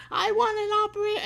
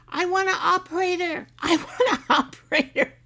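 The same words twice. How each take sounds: First: Mock yell, much higher and louder, rushed fast; hammed-up angry demand, rattled off quickly; louder husband imitation. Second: Mock frustrated demand at a high pitch, much louder, breaking into a laugh; hammed-up husband demanding a human, laughing through it; imitating husband. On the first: Husband losing patience with a phone robot, fast mock yell. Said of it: "his voice gets louder and louder". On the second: Mimicking husband fed up with phone robots, loud mock demand. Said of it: "he, um".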